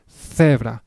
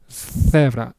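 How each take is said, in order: No difference in how they are said.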